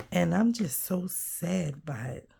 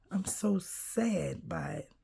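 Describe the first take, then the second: First: Said in the usual way. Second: Real sadness, whispered and softer; sad whisper. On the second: Real, not acted. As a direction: let the voice sink to a sad whisper. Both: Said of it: "I could just cry".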